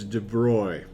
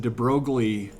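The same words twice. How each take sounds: First: The name is said with a French pronunciation. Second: The name is said with an English pronunciation. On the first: This is how it is said in French. The speaker calls it right. "I guess in French it's de Broglie" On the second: This is how most students say it. The speaker calls it wrong. "most general chem students and they're like"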